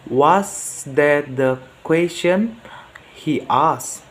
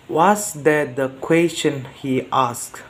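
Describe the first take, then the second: First: "question" rises, then a break before "he asked"; pause after question. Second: "question he asked" run together as one question; no pause. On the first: Learner reading a practice line, pause after rising "question". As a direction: ask up to "question", pause, add "he asked" separately. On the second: Learner reading a practice question, no break before "he asked". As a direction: keep "the question" joined to "he asked". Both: Shown as a demonstration. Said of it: "practice to my pronunciation".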